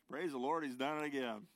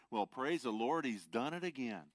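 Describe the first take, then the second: First: Joyful exclamation. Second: Joyful shout. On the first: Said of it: "Lester is referring to the story". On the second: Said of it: "And Lester shouted". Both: Acted.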